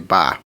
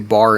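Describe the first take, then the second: First: It is said in a Boston accent. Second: It is said in a New York accent. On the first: "you say ba over in Boston" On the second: "if you say bar in New York"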